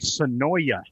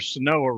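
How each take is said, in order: First: The name ends with an 'oya' sound. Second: The name ends with an 'oa' sound. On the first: The speaker calls it wrong. "they say Sonoya, and I'm like, nah" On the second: The speaker calls it right. "or Sonoa Road, Highway seventy-four"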